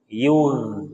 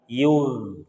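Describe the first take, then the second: First: The gh sound flows out smoothly. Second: The gh sound flows out smoothly.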